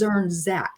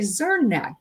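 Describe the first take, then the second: First: The second Z sound is clearly pronounced. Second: The second Z sound is left out. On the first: The speaker calls it right. "but it's Zernzak" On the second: The speaker calls it wrong. "I want to leave that second Z out"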